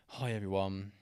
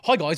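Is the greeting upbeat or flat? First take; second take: flat; upbeat. First: It is said in a flat, low-energy way. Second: It is said in an upbeat, lively way.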